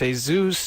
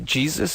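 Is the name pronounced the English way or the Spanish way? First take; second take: Spanish; English. First: The name is said with a Spanish pronunciation. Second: The name is said with an English pronunciation. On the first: This is how it is said in Mexico. "in Mexico, it's Jesus" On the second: This is how it is said here. "over here it's uh, you say Jesus"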